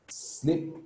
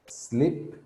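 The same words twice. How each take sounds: The two takes are said the same way.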